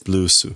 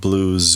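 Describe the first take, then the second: First: It is said with Japanese pronunciation. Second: It is said with English pronunciation. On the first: "it's blues" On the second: "It's not blues"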